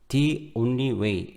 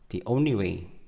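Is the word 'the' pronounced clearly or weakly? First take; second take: clearly; weakly. First: The word 'the' is pronounced clearly and fully. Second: The word 'the' is pronounced very weakly. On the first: "이렇게 또박또박 소리 나지 않고" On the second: "매우 약하게 발음이 됐어요"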